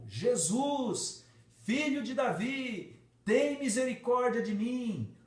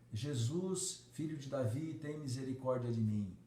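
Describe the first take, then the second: First: It is cried out at full volume. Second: It is said softly and quietly.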